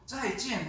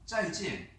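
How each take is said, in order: First: Both syllables are said strongly. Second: The second syllable is said weakly. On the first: The speaker calls it wrong. "짜이, 찐 하면 너무 힘들지 않습니까?" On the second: The speaker calls it right. "뒤에 찐은 경화시켜서 약하게 발음을 하는 겁니다"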